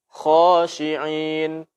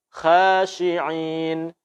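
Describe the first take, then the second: First: The first consonant is heavy, with an O-like vowel. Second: The first consonant is light, with a thin vowel. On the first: The speaker calls it right. "tafkhimkan dengan suara O" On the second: The speaker calls it wrong. "Ini tidak benar"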